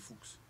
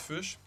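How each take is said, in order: First: It is said the German way, like 'fox'. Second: It sounds like the start of 'fuchsia'. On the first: This is the original form of the name. "En allemand, c'est fuchs" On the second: This is how the family says it. "je dis fuchs, comme dans la couleur fuchsia"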